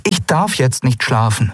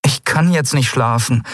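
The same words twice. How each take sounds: First: Darf pushed, sentence high and insistent; stress on darf. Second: Kann lifted and pushed hard; stress on kann. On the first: Andriel insists she must stay awake, stressing darf. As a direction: correct herself, leaning on darf. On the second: Andriel refuses to sleep, pushing kann high. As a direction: protest by hitting kann. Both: A narrator's reading. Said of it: "protestierte sie".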